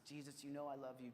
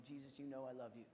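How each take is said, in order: First: Softer, lower earnest answer; humbled reply. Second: Softer, lower earnest answer; humbled reply repeated. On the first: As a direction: say it humbly, almost broken. Peter answering Jesus. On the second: Peter answering again. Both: Retold or imitated.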